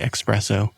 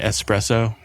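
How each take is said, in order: First: The word begins with an 'ex' sound. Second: The word begins with an 'es' sound. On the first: The speaker calls it wrong. "when people say espresso" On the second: The speaker calls it right. "rather than espresso"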